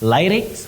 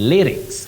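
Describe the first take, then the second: First: The first syllable has a long 'lie' vowel. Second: The first syllable has a short 'li' vowel. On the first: The speaker calls it wrong. "not lie" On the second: The speaker calls it right. "you say li"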